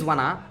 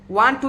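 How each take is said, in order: First: The words are blended into one reduced form. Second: Both words are said fully and separately.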